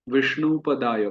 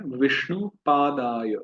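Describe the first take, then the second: First: "पदाय" with a short a, pa-daay; wrong pronunciation. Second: Slow, "पादाय" with a long aa, paa-daay; correct pronunciation. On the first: Teacher imitates the common mistake, "पदाय" with a short first vowel. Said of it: "उच्चारण करते हैं Vishnu पदाय". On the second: Teacher shows devotees the full long vowel in "पादाय", slowly. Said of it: "पादाय पूरा कहना है". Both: Shown as a demonstration.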